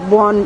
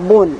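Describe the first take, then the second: First: The first vowel is an open 'aw' sound. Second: The first vowel is a closed 'o' sound. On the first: "বন না বলে" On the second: "বলি বয়কার দন্তের ন, বন"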